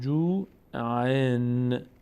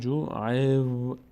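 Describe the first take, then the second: First: The word ends with a clear n sound. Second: The n merges into a following w sound. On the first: This is how it would be read with no following waw. The speaker calls it wrong. "در حالت عادی میشد جو عین" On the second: The n is assimilated into the following waw. The speaker calls it right. "اما میشه الان جو عیو"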